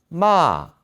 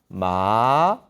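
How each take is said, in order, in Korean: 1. 사성으로 발음합니다. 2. 삼성으로 발음합니다. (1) "사성" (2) "삼성"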